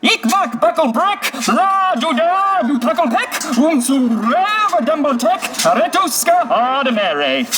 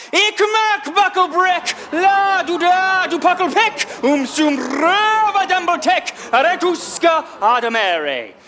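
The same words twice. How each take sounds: First: High, slow, drawn-out nonsense chant; puppet voice. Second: High, slow, drawn-out puppet shout. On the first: Puppet performing its story for watching kids, high puppet voice. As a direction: declaim it as a high-pitched puppet. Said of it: "It comes from a puppet voice". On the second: Puppet on a bucket stunning Frank Hill, shouted puppet voice. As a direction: shout the nonsense out to stun them. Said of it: "shout out the whole thing". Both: Acted.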